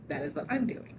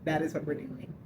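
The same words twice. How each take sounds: First: I'm lifted and rising, set apart from the rest; correcting herself by stressing I'm. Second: Said in the usual way. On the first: Real, not acted. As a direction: lean on I'm to make it personal.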